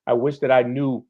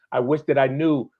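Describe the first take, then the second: No difference in how they are said.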